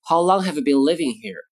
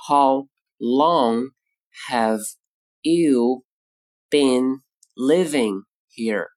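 First: Said in the usual way. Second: Slow, each word set apart. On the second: Shown as a demonstration. Teacher to students, slow word by word. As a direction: break it up for learners.

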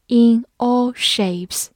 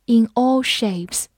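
First: In all shapes said slowly and clearly; slow model reading. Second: Said in the usual way. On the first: Shown as a demonstration. Teacher slowly modelling In all shapes for class. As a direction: draw out In all shapes word by word. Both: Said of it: "比如说，in all shapes".

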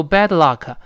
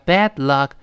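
First: "bad luck" with a narrow eh vowel; wrong BAD LUCK. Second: "bad luck" with a wide open a; wide-mouthed BAD LUCK. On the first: Teacher warns about mouth shape, narrow-vowel "bad luck". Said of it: "不要读bad luck". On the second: Teacher corrects mouth shape, wide-vowel "bad luck". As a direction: spread the mouth wider on "bad". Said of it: "把嘴型咧大一点". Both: Shown as a demonstration.

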